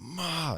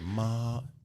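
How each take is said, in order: First: The pitch falls sharply, like an angry word. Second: The pitch stays high and level. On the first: "say it like you're angry" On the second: "all first tone"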